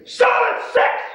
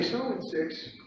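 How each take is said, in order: First: Loud, high pit-trader yell; confrontational shout. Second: Soft-spoken trading call. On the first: Trader imitating a confrontational colleague, shouting the call. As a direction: bellow the call across the pit. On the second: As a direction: call it quietly, holding back. Quiet first take against the shout. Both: Retold or imitated.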